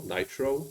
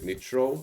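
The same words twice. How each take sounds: First: "nitro" said as NIGH-troh; long i in nitro. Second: "nitro" said as NIT-roh; short i in nitro. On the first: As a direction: say "nitro" with the i of "night", softly. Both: Real, not acted. Corrects own pronunciation of nitro.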